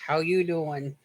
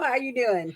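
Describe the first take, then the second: First: It is said imitating Joey from Friends. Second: It is said in her own normal voice.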